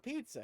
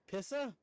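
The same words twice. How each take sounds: First: Said in the usual way. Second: "pizza" said as PISS-uh; short I and no T in "pizza"; mock mispronunciation. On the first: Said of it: "We're talking about pizza here". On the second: Shown as a demonstration. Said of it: "did you expect me to say".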